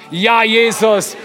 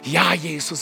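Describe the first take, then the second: First: It is said at a very loud volume. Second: It is said at a quieter volume.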